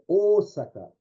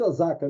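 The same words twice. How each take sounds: First: The first vowel is long. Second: The first vowel is short. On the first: This is how it is said in Japan. The speaker calls it right. "ele prolonga esse som" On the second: This is the Brazilian adaptation of the name. The speaker calls it wrong. "aqui no Brasil a gente chama de Osaka"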